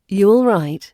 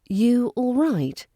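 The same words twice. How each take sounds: First: It is said quickly in a relaxed way. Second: Each word is said slowly and carefully. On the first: "This is a very casual, relaxed greeting" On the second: "if you ask it in a very deliberate manner, Each word is said quite carefully and slower"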